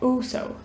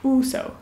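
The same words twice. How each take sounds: The two takes are said the same way.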